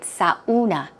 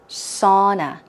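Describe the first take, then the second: First: The word is said with more than two syllables. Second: The word is said with two syllables. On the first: The speaker calls it wrong. "A lot of people tend to say sauna" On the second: The speaker calls it right. "It's like two syllables"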